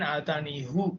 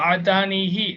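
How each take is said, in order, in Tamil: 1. சொல் 'oo' உயிரெழுத்தில் முடிகிறது. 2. சொல் 'ee' உயிரெழுத்தில் முடிகிறது.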